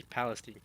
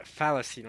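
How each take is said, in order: First: Palestine with an initial P; P pronunciation. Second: Falestine starting with an F; Arabic pronunciation. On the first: Streamer showing the non-Arabic Palestine, P and "-steen". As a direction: say Palestine as PAL-es-teen. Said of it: "they don't say Palestine". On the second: Streamer showing Arabic Falestine, F and "-steen". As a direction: say Falestine as FAL-es-teen. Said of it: "right, with an F". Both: Shown as a demonstration.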